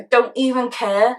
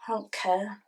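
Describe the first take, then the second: First: Slow, word-by-word defiance; spoken up. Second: Low, very soft sulky mumble; mumbled. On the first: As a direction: spell it out slowly after being told off. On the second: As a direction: mumble it under your breath. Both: Acted. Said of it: "Stop mumbling".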